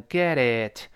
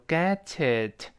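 First: "get it" with the middle t voiced; flapped t. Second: "get it" run together with a clear t; linked "get it". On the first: Teacher shows learners the voiced middle t, flapped "get it". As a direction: soften the t in "get it" into a quick d-like flap. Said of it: "中间那个t在浊化". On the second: Teacher shows learners how to link the words, linked "get it". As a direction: slide the t of "get" into "it", slowly. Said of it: "很自然连住". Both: Shown as a demonstration.

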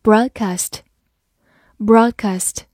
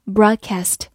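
First: Said in the usual way. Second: "broadcast" with an American short "a" as in cat in "cast"; American pronunciation. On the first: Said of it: "或者美式发音broadcast". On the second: Shown as a demonstration. Teacher showing learners the alternative, "broadcast" in American pronunciation. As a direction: say "broadcast" the American way, ending "kast" with the vowel of cat. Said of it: "或者美式发音".

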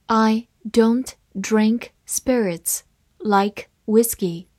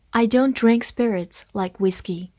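First: Slow, careful reading; deliberate classroom read-aloud, slowed down. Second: Said in the usual way. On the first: Shown as a demonstration. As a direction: read it slowly word by word for learners. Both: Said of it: "好，慢慢来读".

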